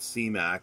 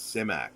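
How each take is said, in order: First: The first syllable sounds like 'see'. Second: The first syllable sounds like 'sim'. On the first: The speaker calls it wrong. "It's not C MAC" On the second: The speaker calls it right. "it's Simak"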